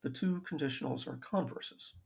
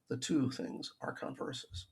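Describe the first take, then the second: First: Converses with the weight up front, CONverses; stress on first syllable. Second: Converses with the weight on the second syllable, conVERses; stress on the wrong syllable. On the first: Lecturer correcting himself, stressing the first syllable of converses. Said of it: "Accent on the first syllable". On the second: Lecturer to students, misplacing the stress on converses. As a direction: slip the stress onto the back half of converses, conVERses. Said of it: "I think I put the emphasis wrong there". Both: Shown as a demonstration.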